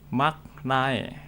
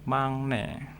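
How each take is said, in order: First: The first syllable ends in a K sound. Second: The first syllable ends in an NG sound. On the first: It is read letter by letter as written. "Ini kalau dibaca secara hurufnya mak nae" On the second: It follows the pronunciation rules. "kalau dibaca sesuai aturan pelafalan dibacanya menjadi mangne"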